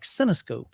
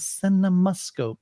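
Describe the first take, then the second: First: The middle syllable is dropped, giving three syllables. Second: All syllables are said, giving four syllables. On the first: The speaker calls it wrong. "I always said like Cinescope" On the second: The speaker calls it right. "No, Michael, it's a Cinemascope"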